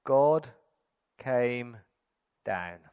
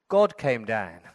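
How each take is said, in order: First: God, came, down, each given its own beat; slow, separate words, fading on down. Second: Said in the usual way. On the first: Shown as a demonstration. Preacher spells out Christmas to the congregation, word by word with pauses. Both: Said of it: "This is Christmas in three words".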